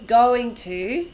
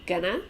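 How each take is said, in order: First: Both words are said fully and separately. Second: The words are reduced and run together. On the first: "going to is gonna" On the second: "going to is gonna"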